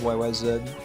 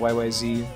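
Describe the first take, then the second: First: The last letter is said as zed. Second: The last letter is said as zee. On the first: The speaker calls it right. "Zed sounds cooler" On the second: The speaker calls it wrong. "I revealed myself as a bad Rush fan by saying"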